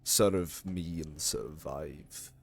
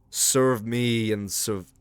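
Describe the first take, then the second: First: It is said in a put-on voice for Vlad. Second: It is said in the speaker's normal voice.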